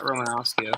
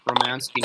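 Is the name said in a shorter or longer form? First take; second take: longer; shorter. First: The name is said in a longer form. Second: The name is said in a shorter form. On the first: The speaker calls it wrong. "I've been saying it wrong" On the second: The speaker calls it right. "Romansky, not Romanowski"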